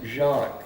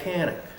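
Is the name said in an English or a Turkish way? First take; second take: Turkish; English. First: The name is said in a Turkish way. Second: The name is said in an English way.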